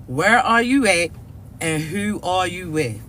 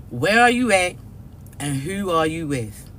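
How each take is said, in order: Both takes have the same delivery.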